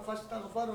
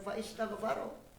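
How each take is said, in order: First: 'Fa' runs straight into 'staghfaro' with no stop. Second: A glottal stop and vowel separate 'fa' and 'istaghfaro'. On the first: The speaker calls it right. "Surat Shad itu wastaghfar fastaghfaro rabbahu" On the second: The speaker calls it wrong. "Bukan fa istaghfaro"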